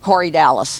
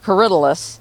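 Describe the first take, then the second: First: The name sounds like the two names Corey Dallas. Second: The name is said as one flowing word. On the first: This is how a friend says it. "my friend calls it Corey Dallas" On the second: This is how the speaker says it. "I call it Corydalus"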